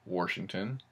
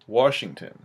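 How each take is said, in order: First: It is said with an added R sound. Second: It is said without an R sound. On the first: The speaker calls it wrong. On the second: The speaker calls it right.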